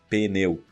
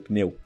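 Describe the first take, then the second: First: The word starts with a P sound. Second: The word starts without a P sound. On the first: The speaker calls it wrong. "E nunca pneu" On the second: The speaker calls it right. "o P seria mudo, então seria pneu"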